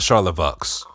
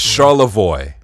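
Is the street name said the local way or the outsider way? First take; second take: outsider; local. First: The name is said the outsider way. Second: The name is said the local Detroit way. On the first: The speaker calls it wrong. "not Charlevoix" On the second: The speaker calls it right. "I pronounce all of the street names like a Detroiter would. It's Charlevoix"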